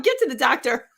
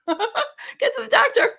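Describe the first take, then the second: First: Said in the usual way. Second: A much higher, laughing repeat of the inner voice's "Get to the doctor"; slow and high, laughing through "Get to the doctor"; laughing, high mock urging. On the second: Telling the host about her inner voice, laughing high. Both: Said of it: "or like".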